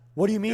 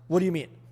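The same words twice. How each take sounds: First: It sounds curious and inquisitive. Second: It sounds doubtful and skeptical. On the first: The speaker genuinely wants to know more. "Second tonality, curiosity" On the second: The speaker doubts what was said. "Number three, skeptical tone"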